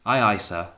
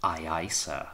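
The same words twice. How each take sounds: First: Put-on louder, dutiful young officer's answer; careful reply. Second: Captain's echo. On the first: Wellard answering his dangerous captain, careful and dutiful. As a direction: answer promptly and firmly, giving nothing away. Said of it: "paused before replying". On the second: Captain repeating Wellard's answer back to him, quietly pointed. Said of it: "repeated the captain". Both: A narrator's reading.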